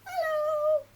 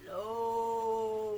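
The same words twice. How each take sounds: First: Squeaky high mouse hello; very high, loud squeak; as high as possible. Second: Long, low-voiced hello; drawn-out deep greeting. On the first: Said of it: "as high as we can". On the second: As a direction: get your low voice out. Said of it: "as low as we can". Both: Shown as a demonstration.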